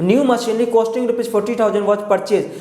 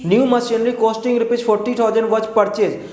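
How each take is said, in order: Both takes have the same delivery.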